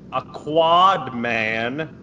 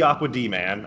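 First: It is said as 'a quad man'. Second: It is said as 'aqua D man'. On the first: The speaker calls it right. "I say it right now" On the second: The speaker calls it wrong. "I've stopped saying it wrong"

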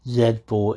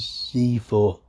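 First: It is said in an English accent. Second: It is said in an American accent.

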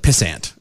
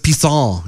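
First: The name is pronounced the plain English way. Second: The name is pronounced the French way. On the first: "instead of" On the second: "It's French"

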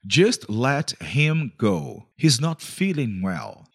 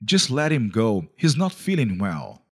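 First: It is said more slowly. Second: It is said at normal speed.

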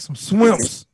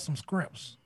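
First: Shrimps is said starting with a sw sound. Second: Shrimps is said starting with an skr sound. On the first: "how we say it on the West Bank?" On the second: "Say it like this"

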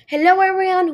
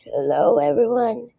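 First: It is said in a healthy, normal voice. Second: It is said in a sick, strained voice.

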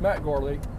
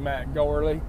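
First: The name is said in a plain, neutral accent. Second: The name is said in a Southern American drawl. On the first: "Here's my normal voice" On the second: "I'm from the South, so I say Matt Gourley"

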